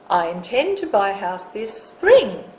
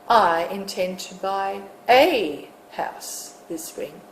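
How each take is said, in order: First: The stress is on spring. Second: The stress is on a.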